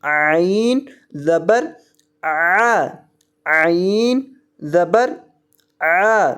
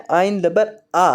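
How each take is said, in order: First: "عین" drawn out with a throat-squeezed ain; slow "عین زبر آ", each word apart, ain from the throat; correct Arabic ain. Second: "عین زبر آ" said quickly like a plain alif; wrong, lax ain. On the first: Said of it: "اس کو پڑھنا ہے". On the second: Teacher copying students' mistake, "عین" said lax as in everyday Urdu. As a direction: say "عین" and "آ" without the throat sound. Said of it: "اکثر طلبہ عین کو غلط پڑھ دیتے ہیں، عین کو مجہول". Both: Shown as a demonstration.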